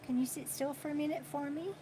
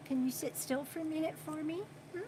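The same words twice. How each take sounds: First: Hushed, quick plea repeated to the pet; soft coaxing. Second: Hushed, quick plea to the pet; soft coaxing. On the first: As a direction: coax it again, softly and fast. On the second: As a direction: gently coax it to stay still. Asking pet to sit still. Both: Real, not acted.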